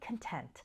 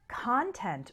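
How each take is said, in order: First: The stress is on the second syllable. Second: The stress is on the first syllable. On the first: Happy and satisfied with what you have. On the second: What is inside something.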